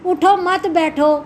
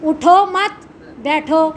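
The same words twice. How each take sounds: First: اٹھو set apart, then مت بیٹھو run together; group مت with بیٹھو as one command; break after اٹھو. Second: اٹھو مت run together, pause, then بیٹھو; pause after مت. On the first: Teacher showing the opposite meaning, breaking after اٹھو before مت بیٹھو. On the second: Teacher showing how delivery changes meaning, pausing after مت before بیٹھو. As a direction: break after مت, leaving بیٹھو on its own. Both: Shown as a demonstration. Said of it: "بولنے کا انداز".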